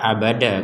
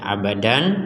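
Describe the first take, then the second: First: The word ends on an open vowel. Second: The word ends with an n sound. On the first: The reader stops on this word. "kita baca abada kalau berhenti" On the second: This is the basic form of the word. "Asal katanya ini adalah abadan"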